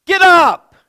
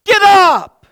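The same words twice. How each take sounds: The two takes are said the same way.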